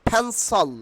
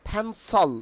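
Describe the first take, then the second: Both takes have the same delivery.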